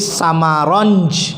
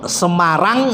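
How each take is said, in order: First: It is said with an Arab accent. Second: It is said with a local Javanese accent.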